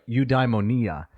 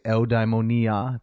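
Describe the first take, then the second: First: The word is pronounced in an anglicized way. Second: The word is pronounced in a Greek way.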